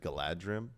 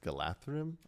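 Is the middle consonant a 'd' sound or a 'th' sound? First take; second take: d; th. First: The middle consonant sounds like a 'd'. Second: The middle consonant sounds like a 'th'. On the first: The speaker calls it wrong. "I always said Galadrim" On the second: The speaker calls it right. "but it's Galathrim, I think"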